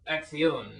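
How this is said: It is said with a Spanish pronunciation. "our man with the board was Puerto Rican, so it was more kind of acción"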